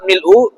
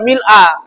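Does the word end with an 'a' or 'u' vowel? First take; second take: u; a. First: The word ends with a 'u' vowel. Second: The word ends with an 'a' vowel. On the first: The word describes the praise as an attribute. "bisa dibaca rafa, artinya doma mil'u" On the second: The word describes the state of the praise. "bisa juga dibaca mil'a"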